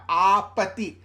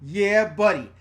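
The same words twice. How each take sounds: First: Put-on "Ah, pati" as garbled toddler version of "Yeah, buddy"; loud open "Ah", then "pati" with hard p and t; toddler mispronunciation. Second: Said in the usual way. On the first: Shown as a demonstration. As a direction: say "Ah, pati" with the consonants muddled like a toddler. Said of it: "And it was coming out". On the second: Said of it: "she was trying to say".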